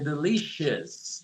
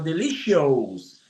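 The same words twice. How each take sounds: First: The ending is said as a short 'us'. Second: The ending is said as a full 'oh-us'. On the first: The speaker calls it right. "mas é delicious" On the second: The speaker calls it wrong. "Dá vontade de falar delicious"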